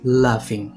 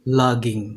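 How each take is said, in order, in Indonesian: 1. Kata ini terdengar seperti 'laughing'. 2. Kata ini terdengar seperti 'logging'. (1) "Yang benar itu laughing" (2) "gue itu ngomongnya logging"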